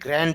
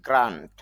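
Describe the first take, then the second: First: The vowel is short. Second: The vowel is long. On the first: The speaker calls it wrong. "এটা গ্র্যান্ট হবে না" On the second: The speaker calls it right. "দীর্ঘ হবে, long sound"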